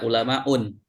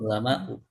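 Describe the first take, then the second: First: The word ends in an added n sound. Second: The word ends in a plain u sound. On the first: The speaker calls it wrong. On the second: The speaker calls it right.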